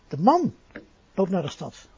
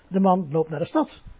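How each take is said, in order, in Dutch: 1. Het woord 'man' krijgt de hoofdklemtoon. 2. Het woord 'stad' krijgt de hoofdklemtoon. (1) "Niet de vrouw, maar de man" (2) "Hij loopt niet naar het platteland, maar naar de stad"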